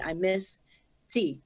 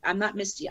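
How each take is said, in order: First: "Miss", a clear pause, then "T" on its own; Miss T as two words. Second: "Misty" run together, stressed on the first syllable; Misty as one word. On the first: Rapper correcting her stage name, "[name]" and "T" split apart. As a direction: separate "Miss" from "T" with a deliberate break. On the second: Rapper rejecting the flyer's spelling, "[name]" as one word. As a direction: say "Misty" as a single name, softly. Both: Shown as a demonstration. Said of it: "putting the emphasis on a different word".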